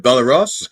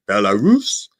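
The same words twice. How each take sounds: First: Belarus with a walrus-like "-russ" ending; mispronounced Belarus. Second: Belarus carefully sounded out, ending in "roos"; careful, correct Belarus, last syllable like "roose". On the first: Retold or imitated. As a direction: say Belarus wrongly, like walrus, amused. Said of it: "like I would pronounce walrus". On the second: Shown as a demonstration. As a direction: sound out Belarus with a long oo at the end. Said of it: "I had to sound it out".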